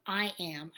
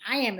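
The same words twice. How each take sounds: First: Said in the usual way. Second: "I am" said much louder and firmly; stress on I am. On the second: Shown as a demonstration. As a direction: punch out "I am" with conviction. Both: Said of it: "is very powerful".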